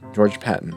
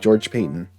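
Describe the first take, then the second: First: The surname begins with a short 'pat' sound. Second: The surname begins with a long 'pay' sound. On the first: The speaker calls it wrong. "I mispronounced his name" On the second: The speaker calls it right. "apparently it's George Payton"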